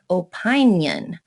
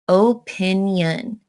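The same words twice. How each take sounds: First: The 'i' after the 'p' is long. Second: The 'i' after the 'p' is short. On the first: The speaker calls it wrong. "If we said it like Rule eight" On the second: The speaker calls it right. "split it after the N, making the first I short"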